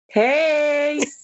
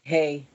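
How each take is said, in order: First: It is said with upbeat, lively energy. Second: It is said flat, with low energy.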